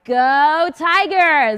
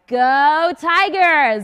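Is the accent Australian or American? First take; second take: American; American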